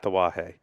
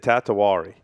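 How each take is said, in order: First: The name is said without an R sound. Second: The name is said with an added R sound.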